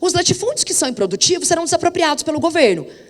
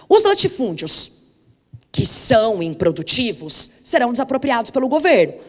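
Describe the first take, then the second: First: The clause runs on with no pauses around it. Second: Short pauses set off the clause 'que são improdutivos'. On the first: Only the unproductive estates will be expropriated. "Olha como é que eu leio o período de baixo" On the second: All the estates are unproductive and will be expropriated. "Olha como eu leio o período de cima"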